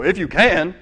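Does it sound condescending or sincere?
condescending. It is said in a mocking, condescending tone.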